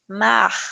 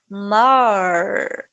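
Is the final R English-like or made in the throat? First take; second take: throat; English-like. First: The final R is a sound from the throat. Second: The final R sounds like an English R. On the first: This is how many regions say it. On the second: This is how some regions say it.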